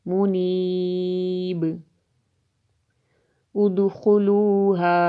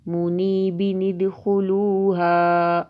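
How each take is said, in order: First: There is a pause after the first word. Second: The two words are joined without a pause.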